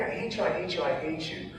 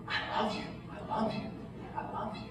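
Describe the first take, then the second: First: Softened replay of crying at God; tearful tantrum retold high and soft. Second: Whispered tenderly, unhurried, with pauses between; patient, loving parent. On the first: Mourner recalls crying out at God, softened tearful tantrum. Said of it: "as I'm sitting there tantruming, crying". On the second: Retold or imitated. God as patient parent holding the tantruming mourner, tender whisper. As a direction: imitate a parent soothing a child in a whisper. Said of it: "like that patient parent, arms wrapped around me".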